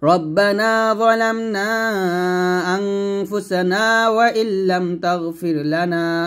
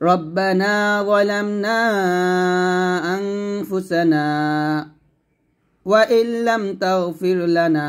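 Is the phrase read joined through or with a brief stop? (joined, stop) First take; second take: joined; stop. First: The phrase is read smoothly without any stop. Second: The voice stops briefly inside the phrase without breathing. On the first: "Sakta না করে আপনি মিলে পড়তে পারেন" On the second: "অথবা সাক্তা ধরতে পারেন"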